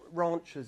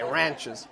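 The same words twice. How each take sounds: First: It is said in a British accent. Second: It is said in an American accent. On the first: It sounds a little posh. The speaker calls it wrong. "ranchers is a little bit posh" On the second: It fits an American setting. The speaker calls it right. "You gotta say ranchers"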